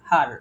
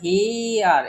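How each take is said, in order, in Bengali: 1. শব্দটা এক টানা, একটাই অক্ষরে বলা হচ্ছে। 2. শব্দটা দুটো আলাদা অক্ষরে ভাগ হয়ে যাচ্ছে। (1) "জাস্ট হার" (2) "নর আমরা হি আর এরকম কিন্তু বলতেছি না"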